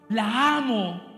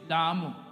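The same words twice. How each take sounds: First: It is said warmly and lovingly. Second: It is said harshly, almost threateningly.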